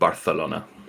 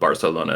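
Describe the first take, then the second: First: The c is said like a th. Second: The c is said like an s. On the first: This is how the locals in Barcelona say it. "everyone there calls it" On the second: This is how the rest of Spain says it. "everywhere else in Spain does not speak like that. So they call it"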